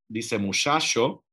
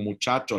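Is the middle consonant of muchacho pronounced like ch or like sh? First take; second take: sh; ch. First: The middle consonant is a soft sh sound. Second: The middle consonant is a sharp ch sound. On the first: It is the less common form, from southern Spain and the Caribbean. "la fricativa es menos frecuente" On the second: It is the more frequent form. "la africada"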